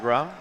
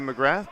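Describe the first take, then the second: First: The name ends on an open aw vowel. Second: The name ends with a th sound. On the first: This is how it is said in Newfoundland. "but in Newfoundland, it's definitely McGraw" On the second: This is how it would be said on the mainland. "if this was uh, the mainland Canada, it'd probably be McGrath"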